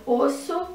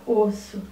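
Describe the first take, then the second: First: Said in the usual way. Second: Osso split os-so with a small break; syllables split. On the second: Shown as a demonstration. (osso separado em sílabas, os-so) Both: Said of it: "Vai escrever osso e separar".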